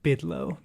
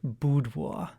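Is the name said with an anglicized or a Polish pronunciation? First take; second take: anglicized; Polish. First: The name is said with an anglicized pronunciation. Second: The name is said with a Polish pronunciation. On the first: "maybe more of our listeners would be familiar if I said bidlo" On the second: "That is the Polish pronunciation"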